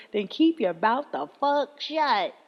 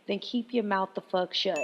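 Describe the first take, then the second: First: Slow, deliberate recitation of the saying; mock proverb. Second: Said in the usual way. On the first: Shown as a demonstration. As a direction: say it slowly, like quoting a wise old saying. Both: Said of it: "is that how the saying goes?".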